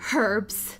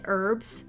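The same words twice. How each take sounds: First: The word begins with an audible h sound. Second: The word begins with no h sound. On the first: "Depending on how you pronounce it" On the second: "silent H"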